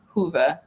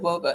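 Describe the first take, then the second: First: It sounds like the word Hoover. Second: It is said as spelled, starting with w. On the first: The speaker calls it right. "it's pronounced like Hoover" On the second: The speaker calls it wrong. "I said WOBA"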